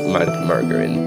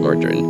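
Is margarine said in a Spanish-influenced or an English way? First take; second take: Spanish-influenced; English. First: It is said with a Spanish-influenced pronunciation. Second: It is said with a standard English pronunciation. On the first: This is the habitual way from Spanish. The speaker calls it wrong. "In Spanish we say margarina, so that's why margarine" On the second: This is believed to be the proper way. The speaker calls it right. "but I'm pretty sure it's margarine"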